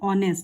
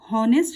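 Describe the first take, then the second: First: The word begins without an h sound. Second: The word begins with an h sound. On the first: The speaker calls it right. "यहाँ पर एच silent है" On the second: The speaker calls it wrong. "इसे हॉनेस्ट नहीं पढ़ेंगे"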